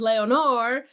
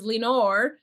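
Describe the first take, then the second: First: The name is said with a Spanish accent. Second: The name is said with an English accent. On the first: "We could pronounce it the Spanish way" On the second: "we can pronounce it the gringo style"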